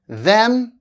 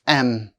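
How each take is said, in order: First: The word begins with a th sound. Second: The word begins without a th sound.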